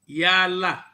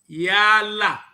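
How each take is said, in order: First: The vowels are said short. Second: The vowels are said long. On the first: It means to extend. "exemplos de vogais breves" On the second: It means to govern. "algumas vogais longas, com as mesmas expressões"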